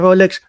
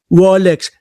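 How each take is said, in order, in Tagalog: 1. Ang salita ay nagsisimula sa tunog na R. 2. Ang salita ay nagsisimula sa tunog na W.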